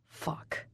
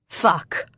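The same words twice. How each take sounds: First: Whispered curse, almost silent; under his breath. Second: Said in the usual way. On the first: Acted. Husband curses under his breath on hearing the news. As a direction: breathe it out in dismay.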